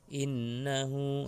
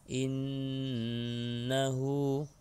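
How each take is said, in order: First: The doubled n is cut short without a nasal hum. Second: The doubled n is held with a long nasal hum. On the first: The speaker calls it wrong. "itu salah" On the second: The speaker calls it right. "nunnya tiga, tiga jari"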